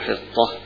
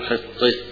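First: The vowel before the final h stays open. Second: The vowel before the final h leans toward e. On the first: This is the majority reading, without imala. "الجمهور ... يقولوا حطة إذا وقفوا عليه" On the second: This is a less common reading, with imala. "هنا أيضا بالإمالة، يقولوا فيها إمالة الهاء"

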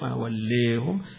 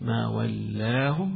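First: The long a vowel is raised slightly toward e. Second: The long a vowel stays fully open. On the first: "والتقليل" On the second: "الفتح"

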